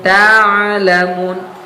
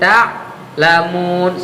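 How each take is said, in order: First: The ain flows smoothly into the word. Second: The ain is cut off with a stop. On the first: The speaker calls it right. "Harusnya saufa ta'lamun, ta'lamun. Mengalir" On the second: The speaker calls it wrong. "sakta jadinya"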